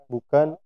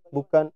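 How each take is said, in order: The two takes are said the same way.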